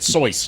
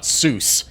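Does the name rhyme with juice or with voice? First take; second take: voice; juice. First: The name is said with an oi vowel. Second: The name is said with an oo vowel. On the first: The speaker calls it right. "it's pronounced it Seuss" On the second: The speaker calls it wrong. "not Seuss"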